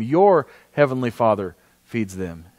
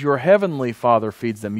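First: "Your" leaned on, slow and lower; slow down and hit "Your heavenly Father"; stress on Your. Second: Said in the usual way. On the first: Shown as a demonstration. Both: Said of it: "Notice how he says this".

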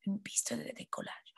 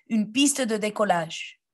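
First: Voiceless whisper of the phrase. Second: Said in the usual way. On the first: Shown as a demonstration. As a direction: whisper it for them to repeat. (chuchoté) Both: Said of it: "Répétez".

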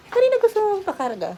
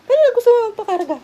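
First: Higher, louder, fast repeat to the cat; high pet talk. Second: High pet talk. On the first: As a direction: ask the cat again in a high voice. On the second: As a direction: coo at the pet loudly and quickly. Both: Real, not acted.

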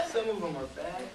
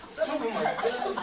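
First: Lower, dropping away from "Some" towards "bad"; jokey admission. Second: Loud and proud, rising on "good"; upbeat boast. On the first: Producer owning up to his bad films, amused. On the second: Acted. Producer boasting of his good films, upbeat. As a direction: lift "good" up brightly and loudly.

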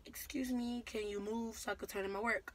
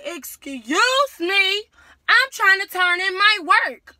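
First: Calm, polite, respectful ask; polite request. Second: Yelled high and very loud, stretching "Excuse"; furious classroom shout. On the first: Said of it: "I said it like a regular, you know, regular tone, nice". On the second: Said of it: "I was real loud then". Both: Retold or imitated.

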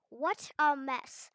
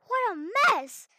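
First: Said in the usual way. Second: High, loud slow exclamation; loud exclaim. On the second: Shown as a demonstration. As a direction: shout it out in dismay. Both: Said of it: "repeated louder".

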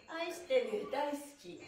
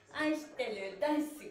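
Both takes have the same delivery.

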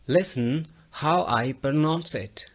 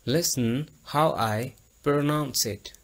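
First: Listen how I pronounce it said slowly, each word clear; slow clear model. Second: Listen how I pronounce it again slowly, word by word; slow clear repeat. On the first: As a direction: spell it out slowly for the learners. (धीमे और साफ़ उच्चारण में) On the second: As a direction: repeat it clearly for the class to copy. (धीमा साफ़ दोहराव) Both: Shown as a demonstration. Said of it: "आप मेरी आवाज़ पर गौर करें".

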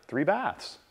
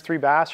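First: Softer echo of three baths, falling at the end; mirroring echo. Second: Said in the usual way. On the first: Shown as a demonstration. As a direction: mirror the client's words back, falling. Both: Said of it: "repeating the last one to three words".

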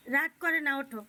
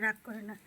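First: Louder, firm urging; loud firm coaxing; insistent plea. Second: Calm the sulk down gently; gentle soothing. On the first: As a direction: raise the voice to push him up. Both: Real, not acted. Soothing a sulking child.

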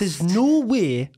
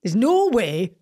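First: Very drawn-out Geordie model line; slow Geordie. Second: Careful imitation of a Geordie accent; passable Geordie. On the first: Coaching the accent phrase by phrase, very slow Geordie. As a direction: project it slowly in broad Geordie. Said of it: "and slow". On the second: Repeating after the coach, passable careful Geordie attempt. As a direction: copy the Geordie line, only passably. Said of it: "That was okay". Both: Shown as a demonstration.

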